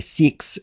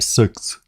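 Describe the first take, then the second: First: It is said with an Australian accent. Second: It is said with a New Zealand accent. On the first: "they say six" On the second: "I say six"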